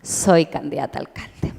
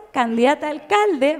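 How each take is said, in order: First: Lower, grave mock-devout announcement; lightly voiced dutiful believer; mock obedient reply. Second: Said in the usual way. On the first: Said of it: "yo digo". (imitación devota y grave, más baja)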